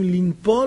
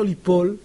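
First: An n sound is heard after the first syllable. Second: No n sound is heard after the first syllable. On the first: The speaker calls it wrong. "כמו שיש שם נון, צריך להיות... לנפול" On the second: The speaker calls it right. "אומרים ליפול"

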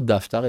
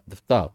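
First: The stress is on the first syllable. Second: The stress is on the last syllable. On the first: The speaker calls it wrong. "לא דפטר" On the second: The speaker calls it right. "אלא דפטר, זה מילרע"

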